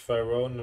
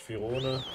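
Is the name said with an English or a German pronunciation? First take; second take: English; German. First: The name is said with an English pronunciation. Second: The name is said with a German pronunciation. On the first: "Im Englischen vielleicht" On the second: "im Deutschen sagt man vielleicht"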